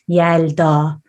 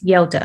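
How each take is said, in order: First: The name is said with a Turkish pronunciation. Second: The name is said with an English pronunciation. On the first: "in Turkish it's more like Yelda" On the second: "English people would just say as Yelda"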